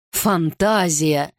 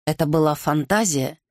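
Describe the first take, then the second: First: ФАНТАЗИЯ drawn out slowly in disbelief; incredulous echo. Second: Said in the usual way. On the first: Acted. King echoes the courtier's excuse, slow and incredulous. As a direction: repeat ФАНТАЗИЯ back, stretched out, doubting it.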